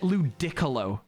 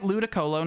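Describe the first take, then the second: First: The middle of the word is stressed heavily. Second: The middle of the word is stressed lightly. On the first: This is how a friend mispronounced it. The speaker calls it wrong. "really heavily put emphasis on the middle of the word" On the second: This is the usual pronunciation. The speaker calls it right. "Not like Ludicolo"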